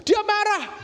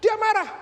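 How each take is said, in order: First: Higher and louder "Dia marah", punched hard; loud emphasis. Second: Higher and louder "dia marah", stress on "marah"; loud emphasis repeated. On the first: Preacher tells congregation brother got angry, loud. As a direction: bang out "Dia marah" with force. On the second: Preacher repeats to congregation brother got angry, loud. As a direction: hammer "dia marah" again. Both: Retold or imitated.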